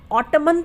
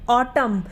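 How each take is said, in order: First: The word ends with an audible n sound. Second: The word ends on m with no n. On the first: The speaker calls it wrong. "हम ऑटमन तो नहीं बोलते" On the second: The speaker calls it right. "क्या बोलते हैं, ऑटम"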